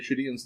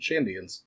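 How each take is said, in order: First: The word is said without the n sound. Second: The word is said with the n sound. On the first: The speaker calls it wrong. "it's easier to say Shadians" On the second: The speaker calls it right. "than Shandians"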